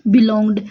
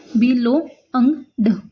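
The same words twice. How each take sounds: First: Said in the usual way. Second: बिलोंग्ड stretched very slowly, each sound drawn out; slow sounded-out demo. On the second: Shown as a demonstration. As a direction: spell बिलोंग्ड out slowly, every sound apart, the vowel long. (बिलोंग्ड को धीरे-धीरे, हर ध्वनि अलग करके बोलें) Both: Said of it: "ठीक है, बिलोंग्ड".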